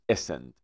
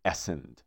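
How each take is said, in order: First: "ascend" with a weak "uh/e" at the start; correct pronunciation. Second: "ascend" with an open "a" at the start; wrong pronunciation. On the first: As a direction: say "ascend" as e-SEND. (تلفظ درست "ascend" با «اِ» کوتاه در اول) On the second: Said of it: "ما نمیگیم ascend". (تلفظ اشتباه "ascend" با «اَ» در اول) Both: Shown as a demonstration.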